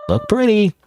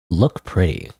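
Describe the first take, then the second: First: Much higher, lilting "look pretty"; high-pitched read. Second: Low deadpan repeat. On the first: Gamer reading out the game's dialogue, high-pitched. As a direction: read it high up, falling at the end. Reading a game line two ways. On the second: Gamer repeating the game's line to himself, low-pitched. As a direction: lower "look pretty", dropping away. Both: Acted.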